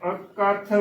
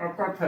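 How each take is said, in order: First: ਅਕਥ as "ak-kath", holding the k; doubled k. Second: ਅਕਥ softly, with a short single k; unstressed single k. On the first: Teacher models correct adhak reading, ਅਕਥ with doubled k. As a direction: lean on a geminated k in ਅਕਥ. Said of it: "ਅਦਕ ਲਗਾ ਕੇ ਸ਼ੁੱਧ ਉਚਾਰਨ ਹੈ". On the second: Teacher demonstrates wrong mukta reading, ਅਕਥ with single k. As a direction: say "akath" light, no doubled consonant. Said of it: "ਪਰ ਇਹ ਗਲਤ ਉਚਾਰਨ ਹੈ". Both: Shown as a demonstration.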